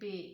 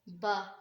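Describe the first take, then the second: First: The name ends in a long e vowel. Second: The name ends in a long open a vowel. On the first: This is how the letter is named in Urdu. "बड़ी ये का इजाफा करते हैं" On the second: This is how the letter is named in Arabic. "बा में झटका नहीं देना"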